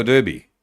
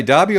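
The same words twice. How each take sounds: First: Derby with an er in it; DER-bee pronunciation. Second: Derby with an ah in it; DAR-bee pronunciation. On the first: Host asking co-host's preference, Derby said DUR-bee. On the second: Host asking co-host's preference, Derby said DAR-bee. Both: Shown as a demonstration. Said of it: "What do you say?".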